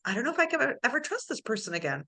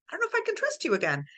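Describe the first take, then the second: First: Said in the usual way. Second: High, fast worried line; anxious rush. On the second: Retold or imitated. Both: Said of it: "you're like".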